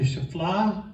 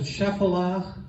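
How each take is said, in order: First: Shephelah run together as "shuh-FLAH"; two-syllable pronunciation. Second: Shephelah in three syllables, "SHEF-eh-lah"; alternative pronunciation. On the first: Teacher naming the coastal plain and the Shephelah, Shephelah said "shuh-FLAH". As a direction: say Shephelah with a squeezed, unstressed first vowel, "shf-LAH". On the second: Teacher showing how some people pronounce it, Shephelah said "SHEF-uh-lah". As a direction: open Shephelah with a clear "shef", then "uh-lah". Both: Shown as a demonstration. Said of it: "Some people pronounce it".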